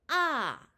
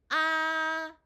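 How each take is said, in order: First: The pitch falls sharply from high. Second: The pitch stays high and level.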